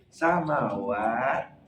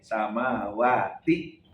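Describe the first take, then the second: First: The word ends with a stopped t sound. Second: The word ends with a t and vowel i. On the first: The speaker calls it right. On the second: The speaker calls it wrong.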